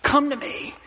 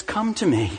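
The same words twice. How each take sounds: First: High, sharp barked command; a demanding, high-pitched call; mock harsh shout. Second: A tender, fatherly invitation; gentle invitation. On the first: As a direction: snap it out like an impatient parent. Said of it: "He's not here to shout at us". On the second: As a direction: welcome them home tenderly. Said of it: "do you hear how God parents us". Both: Shown as a demonstration.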